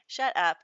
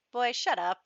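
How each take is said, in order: First: Louder, level "Shut up" with no pitch lift; flat louder shut up. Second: Higher, louder mock brush-off of "Boy, shut up"; dismissive snap. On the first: Retold or imitated. Noelle repeating her brush-off to Pelham, flat and louder. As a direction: drop it flat and loud. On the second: Noelle snapping at Pelham to stop, a mock louder brush-off. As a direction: brush him off, a little louder. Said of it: "Noelle's just kinda like".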